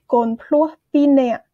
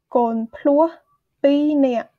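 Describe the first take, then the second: First: "con plua pinea" spoken slowly, stress on plua, falling; careful teacher demo; slow model word. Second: Said in the usual way. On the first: Shown as a demonstration. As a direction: model the phrase for learners. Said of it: "teacher models the word". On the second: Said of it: "repeat of model".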